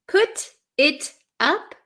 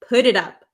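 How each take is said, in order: First: The phrase is said at a slower pace. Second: The phrase is said very fast.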